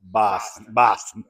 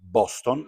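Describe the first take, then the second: First: BOSTON with open A and swallowed second vowel, "Bast'n"; rival pronunciation. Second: BOSTON with round O and clear final ON; Italian pronunciation. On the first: Retold or imitated. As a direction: say Boston as "Bahst'n". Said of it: "and the other was a Boston". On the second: Shown as a demonstration. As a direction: say Boston the Italian way, both vowels full O. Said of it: "like we say in Italy".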